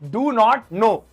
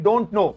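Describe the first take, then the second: First: All three words are said in full. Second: The first two words are contracted into one.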